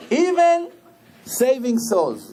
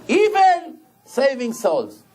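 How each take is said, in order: First: "Even" lifted high, then "saving souls" slow; stress on EVEN. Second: Even slowed and stretched; stress on even. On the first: Rabbi repeating the point, lifting Even high. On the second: Rabbi slowing down to stress even saving souls. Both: Shown as a demonstration.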